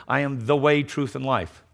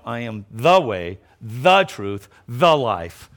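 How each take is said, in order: First: Said in the usual way. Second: Slow "I am the way, the truth, the life" with every "the" leaned on; weighty emphasis on each "the"; stress on each THE. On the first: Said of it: "Notice it wasn't this". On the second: Shown as a demonstration. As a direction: slowly set apart "the way", "the truth", "the life".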